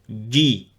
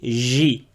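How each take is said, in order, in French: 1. La langue ferme complètement contre le palais. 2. La langue laisse un espace, ce qui donne un son doux. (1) "il faut bien fermer le milieu du palais" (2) "pour pas prononcer J. Donc J en français"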